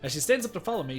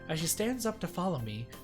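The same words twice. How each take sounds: First: It is said in the speaker's own normal voice. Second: It is said in a put-on female character voice.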